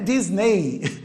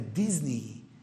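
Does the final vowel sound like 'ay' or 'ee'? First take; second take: ay; ee. First: The final vowel sounds like 'ay'. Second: The final vowel is a long 'ee'. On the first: The speaker calls it wrong. "Não é Disney" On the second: The speaker calls it right. "palavra terminada em E Y é um I longo"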